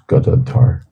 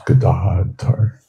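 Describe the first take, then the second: First: The 'gada' part has a short A vowel. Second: The 'gada' part has a long A vowel. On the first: The name means bearer of disease. The speaker calls it wrong. "mispronounced as Gadadhar" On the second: The name means bearer of a club. The speaker calls it right. "what we want is Gadadhar"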